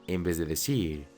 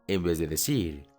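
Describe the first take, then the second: Both takes have the same delivery.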